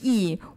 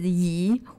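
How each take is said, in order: First: It is said with the fourth tone. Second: It is said with the second tone. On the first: It means righteousness. "The fourth term is yi" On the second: It means move. "your second term is yi"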